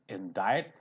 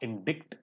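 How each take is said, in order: First: No c sound is heard before the t. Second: A c sound is heard before the t. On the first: The speaker calls it right. "it is indict. See it silent" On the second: The speaker calls it wrong. "This is not indict"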